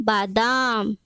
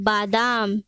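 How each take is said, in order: The two takes are said the same way.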